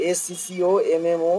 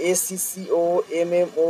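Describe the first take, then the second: No difference in how they are said.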